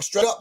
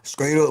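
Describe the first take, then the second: First: It is said in his normal voice. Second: It is said in an Atlanta accent.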